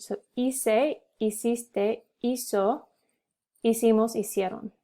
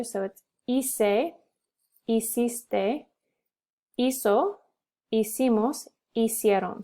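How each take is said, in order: First: Hice said as ice, no H sound; "hiciste" with a silent H, starting on the vowel. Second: Said in the usual way. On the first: Shown as a demonstration. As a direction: drop the H: "hice" as "ee-seh". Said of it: "So you don't pronounce the H". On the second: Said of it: "conjugation drill".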